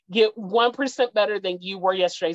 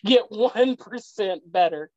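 First: Said in the usual way. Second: Slow, each word weighed, stress on get; slow emphasis. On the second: Shown as a demonstration. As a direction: lean on get and stretch the line out. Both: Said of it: "Get, it's not church".

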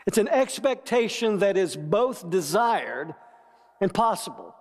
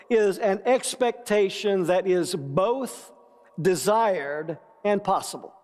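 First: "expectation", "desired" and "possible" each leaned on and weighted; stress on key words. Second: Said in the usual way. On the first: Shown as a demonstration. Pastor repeating hope's definition to the congregation, pressing "expectation", "desired", "possible". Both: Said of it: "Emphasis on expectation".

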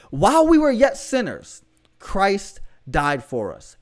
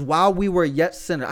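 First: "While we were yet sinners" pitched up, then "Christ died for us" slow and dropping; emphatic verse. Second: Said in the usual way. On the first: Real, not acted. Repeats verse after urging come on.

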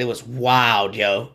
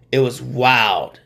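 First: Said in the usual way. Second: It was wild drawn out slowly, each word weighted; slow emphatic repeat. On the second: Real, not acted. Host marvelling at a gruesome leg break, slow and weighty. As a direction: let it sink in, slowly.

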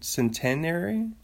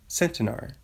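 First: Centenary stressed on second syllable, sen-TEN-ary, rising; questioning centenary with the stress on TEN; unsure pronunciation. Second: Centenary stressed on first syllable, SEN-tuh-nar, falling; Centenary with stress up front; alternative pronunciation. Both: Shown as a demonstration. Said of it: "don't know how to say it".

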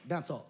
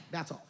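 The two takes are said the same way.

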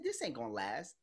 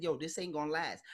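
First: Muttered prediction. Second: Said in the usual way. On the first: Retold or imitated. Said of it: "I said". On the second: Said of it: "when I said".

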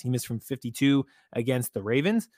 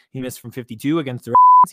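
First: Said in the usual way. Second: Emphatic outburst. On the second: Real, not acted. Repeating the stat for emphasis.

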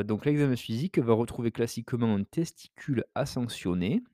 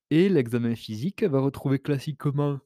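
First: Said in the usual way. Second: Speaking through a yawn; words pulled out of shape by a yawn. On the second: Real, not acted. (en bâillant) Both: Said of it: "oh, excusez-moi, je bâille un petit peu".

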